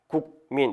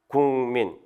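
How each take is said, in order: First: The first syllable ends in a k sound. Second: The first syllable ends in an ng sound. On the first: This is how the word is written. "이렇게 됐으면" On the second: This is how the word is actually pronounced. "실제 발음은 국민 이렇게 발음이 된다"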